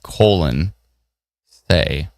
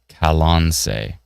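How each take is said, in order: First: The first syllable sounds like 'col'. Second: The first syllable sounds like 'ka'. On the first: The speaker calls it wrong. "I naturally would have gone with colon say" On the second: The speaker calls it right. "but it's Kalonse"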